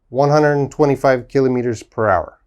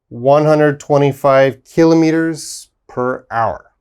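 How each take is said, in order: First: It is said at a faster pace. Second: It is said at a slower, careful pace.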